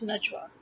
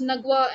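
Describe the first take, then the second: First: "Najwa" as NUJ-wa, soft j; short uh, then j in "Najwa"; correct Najwa. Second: "Nagwa" as NUG-wa, hard g; short uh and hard g in "Nagwa"; Egyptian Nagwa. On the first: Correcting her own name, the version with a J. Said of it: "it's Nagwa and it's Najwa". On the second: Correcting her own name, Egyptian version. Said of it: "Nagwa is the Egyptian version". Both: Shown as a demonstration.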